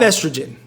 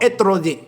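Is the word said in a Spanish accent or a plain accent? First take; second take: plain; Spanish. First: The word is said in a plain accent. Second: The word is said with a Spanish-sounding accent. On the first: The speaker calls it right. "I'm going to say it normal" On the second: The speaker calls it wrong. "Why do I have a Spanish accent when I say those?"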